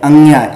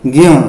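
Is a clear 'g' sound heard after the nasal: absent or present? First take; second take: present; absent. First: It is said as 'angya' with a 'g'. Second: It is a nasal sound with no 'g'. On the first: The speaker calls it wrong. "ये उच्चारण सही नहीं है" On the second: The speaker calls it right. "इसका हम उच्चारण करते हैं ऐसे ज्ञ"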